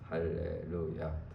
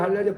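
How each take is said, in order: First: It is said at a normal pace. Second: It is said fast.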